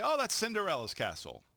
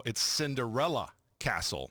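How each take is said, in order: First: "Cinderella's castle" with a possessive s on Cinderella's. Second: "Cinderella Castle" with no s on Cinderella; no possessive. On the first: Retold or imitated. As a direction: say "Cinderella's" with the 's, as most people wrongly do. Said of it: "most people would say". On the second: Shown as a demonstration. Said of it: "It's not possessive".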